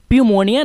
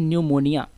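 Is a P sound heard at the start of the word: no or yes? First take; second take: yes; no. First: The word begins with a P sound. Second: The word begins with an N sound. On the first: The speaker calls it wrong. "इसलिए हम लोग प्यूमोनिया नहीं कहते इसको" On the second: The speaker calls it right. "इसे हम लोग कहते हैं न्यूमोनिया"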